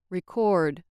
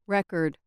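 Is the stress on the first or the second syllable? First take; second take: second; first. First: The stress is on the second syllable. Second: The stress is on the first syllable. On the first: It is a verb. "and on the second syllable, they act as verbs" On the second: It is a noun. "With stress on the first syllable, the following words act as nouns"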